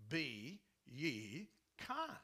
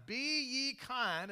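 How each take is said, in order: First: Very slow, lower and set apart; slow, grave Be ye kind; solemn slow command. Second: Higher, louder and slow Be ye kind; loud, drawn out Be ye kind; emphatic command. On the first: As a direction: lay down Be ye kind as a firm order. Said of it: "It's exactly what it says". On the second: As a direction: proclaim it from the pulpit. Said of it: "the scripture says that, that we are to be kind". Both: Shown as a demonstration.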